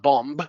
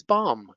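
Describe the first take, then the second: First: "bomb" said with the final B pronounced; "bomb" ending in an audible b; wrong, B sounded. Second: "bomb" said as bom, no final b; "bomb" ending on the m; silent B. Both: Shown as a demonstration. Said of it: "it's not bomb".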